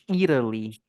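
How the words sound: The T is a quick tap like R. This is the American way of saying it. "exatamente. Italy, eles falam"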